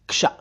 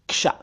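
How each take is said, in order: Both takes have the same delivery.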